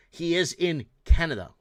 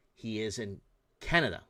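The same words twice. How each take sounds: First: "is" punched louder and held, "He is in Canada"; firm louder "He is in Canada" stressing "is"; stressed is. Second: Said in the usual way. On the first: Real, not acted. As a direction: hit the word "is" hard, louder. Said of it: "This guy is not Canadian".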